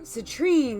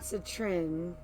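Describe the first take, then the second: First: The final syllable has a long 'ee' vowel. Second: The final syllable has a short 'i' vowel. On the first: The speaker calls it right. "so citrine" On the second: The speaker calls it wrong. "not citrin"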